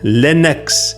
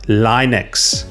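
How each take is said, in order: First: The first vowel is a short i, as in pin. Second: The first vowel is a long i sound. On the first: The speaker calls it right. "Short I like the word pin" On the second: The speaker calls it wrong. "not Linux"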